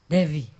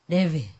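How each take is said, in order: The two takes are said the same way.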